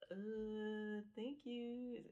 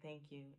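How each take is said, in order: First: It sounds awkward and uncomfortable. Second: It sounds relaxed and comfortable.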